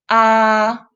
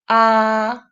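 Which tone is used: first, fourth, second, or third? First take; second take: first; first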